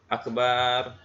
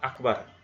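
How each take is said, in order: First: The vowel after b is drawn out long. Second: The vowel after b is short. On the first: It means a drum. The speaker calls it wrong. "memanjangkan huruf ba" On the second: It means greatest. The speaker calls it right. "lafadz akbar"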